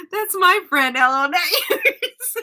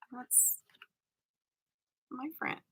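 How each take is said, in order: First: High, loud possessive teasing; mock jealousy. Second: Very soft mock-jealous murmur; hushed possessive jealousy. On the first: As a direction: protest it playfully, breaking into laughter. Playfully acts out friend's jealousy. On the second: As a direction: say it barely audibly, as if to yourself. Acts own secret possessive jealousy.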